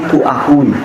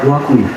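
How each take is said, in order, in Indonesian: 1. Setiap suku kata diucapkan terpisah dan jelas. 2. Suku katanya menyambung halus tanpa jeda. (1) "didengarkan secara clear, pasti kuakui" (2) "kalau untuk yang natural kuakui"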